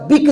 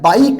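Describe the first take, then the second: First: The vowel is a short 'i' sound. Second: The vowel is an 'eye' sound. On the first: The speaker calls it wrong. "बिक झाला का? नाही" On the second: The speaker calls it right. "आई झाला, बाईक"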